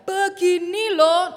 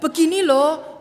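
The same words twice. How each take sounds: First: The voice is at its highest and loudest. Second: The voice is raised higher and louder. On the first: The speaker has become angry. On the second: Patience is starting to run out.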